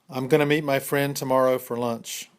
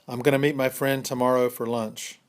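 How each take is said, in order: Both takes have the same delivery.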